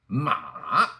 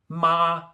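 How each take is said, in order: First: The syllable is said with the third tone. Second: The syllable is said with the first tone. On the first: "Third tone" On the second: "let's go through the four tones again"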